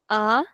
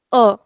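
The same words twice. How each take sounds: First: A as an open "ah"; open default A. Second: A as a short closed "uh"; closed accented A. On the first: Teacher contrasting two sounds, open ah for A. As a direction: open up fully on A, saying ah. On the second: Teacher contrasting two sounds, closed uh for A. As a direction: say A with the mouth barely open, uh. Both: Shown as a demonstration. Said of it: "There's a difference".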